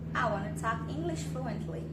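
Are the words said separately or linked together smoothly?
linked. The words run together without pauses between them. The speaker calls it right. "vai uh, conectando uma palavra na outra"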